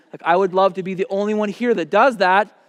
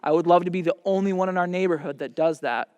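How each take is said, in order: First: Louder, leaning on the repeat; louder emphatic repeat. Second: Said in the usual way. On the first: Shown as a demonstration. Father repeating his wish to the young man, louder. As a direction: push it harder the second time.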